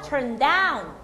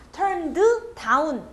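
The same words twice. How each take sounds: First: "Turn down" in one smooth piece; joined "turn-DOWN" with no extra vowel; linked words. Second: Slow "turn-deu... down" with an extra vowel; staccato "turn-deu da-un"; unlinked, wrong take. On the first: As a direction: glide from "turn" straight into a long "down". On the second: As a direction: say "Turned" and "down" as separate chopped words. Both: Shown as a demonstration. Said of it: "아닙니다".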